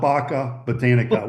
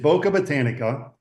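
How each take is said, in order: First: The first vowel is not a long O. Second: The first vowel is a long O. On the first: The speaker calls it wrong. "Please don't call it Baca Botanica" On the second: The speaker calls it right. "That is a long O"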